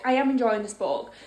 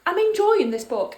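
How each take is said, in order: First: Am pressed firm and full; I am enjoying it, leaning on am; stress on am. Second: Said in the usual way. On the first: Shown as a demonstration. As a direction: insist with a hard am.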